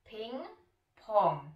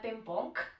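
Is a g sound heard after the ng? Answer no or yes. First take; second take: no; yes. First: No g sound follows either ng. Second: A clear g sound follows each ng. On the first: This is how it is said in English. "to g tam není" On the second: This is how it is said in Czech. "v češtině říkáme ping-pong většinou"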